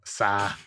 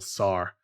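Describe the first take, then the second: First: The name is said with the final r dropped. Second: The name is said with a clear final r.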